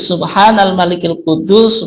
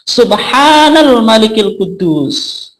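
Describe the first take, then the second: First: It is said plainly at normal length. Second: It is drawn out with a raised pitch.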